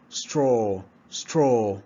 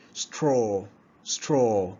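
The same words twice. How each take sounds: The two takes are said the same way.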